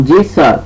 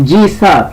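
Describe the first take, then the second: Both takes have the same delivery.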